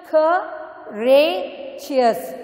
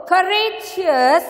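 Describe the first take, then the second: First: "courageous" broken into three slow beats with clear gaps; "courageous" split apart for learners; syllable by syllable. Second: Said in the usual way. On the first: Shown as a demonstration. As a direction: say "courageous" very slowly as cou, ra, geous. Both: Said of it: "how I am going to do it is".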